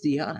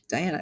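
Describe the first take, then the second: First: The name begins with a 'dee' sound. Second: The name begins with a 'die' sound. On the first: This is how the person herself says the name. The speaker calls it right. "No, it's Deanna" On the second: This is the anglicized reading of the spelling. The speaker calls it wrong. "the anglicized pronunciation is Diana"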